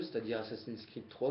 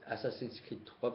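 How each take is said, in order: First: Said in the usual way. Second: Put-on "Assassin's Creed" said slowly in a jokey English accent, softer; mock English accent. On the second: Vlogger showing off his English accent to viewers, playful. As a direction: ham up an English accent on the game title. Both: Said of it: "avec mon super accent anglais".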